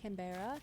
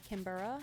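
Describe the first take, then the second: First: "Canberra" said as can-BEAR-a, questioning; middle-stressed Canberra. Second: "Canberra" said as CAN-bruh, questioning; reduced-middle Canberra. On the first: Streamer testing the way she always said it, can-BEAR-a. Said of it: "I've been saying Canberra". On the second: Streamer testing the proper pronunciation, CAN-burra. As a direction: say "Canberra" with the middle squashed to "bur". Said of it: "I think you pronounce it Canberra". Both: Shown as a demonstration.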